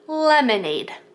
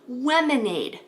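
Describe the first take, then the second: First: The word begins with a clear L sound. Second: The word begins with a W sound. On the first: The speaker calls it right. "To make a good L sound, your tongue tip has to be there" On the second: The speaker calls it wrong. "they'll turn it into a W"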